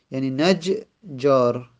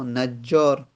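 First: نجار said slowly with the ج doubled and held: najjār. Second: Said in the usual way. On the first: Shown as a demonstration. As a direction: hold the ج in نجار twice as long. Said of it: "دو تا ج هست دیگه".

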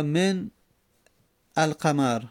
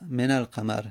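First: من القمر split as "men... alqamar"; two separate words, من / القمر; unlinked silent n. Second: من القمر linked as "menal-qamar"; n with fatha. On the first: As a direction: stop on the n of من, long pause, then القمر. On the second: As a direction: run من into القمر with an a. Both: Shown as a demonstration. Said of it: "میگیم من".

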